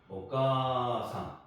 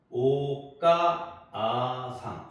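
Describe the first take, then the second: First: The 'ka' vowel is smoothly stretched longer. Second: The extra 'a' is said as a separate syllable. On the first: The speaker calls it right. "카를 좀 더 길게 한 번 더 발음하는 거예요" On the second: The speaker calls it wrong. "오카아상 이렇게 발음하는 게 아니고"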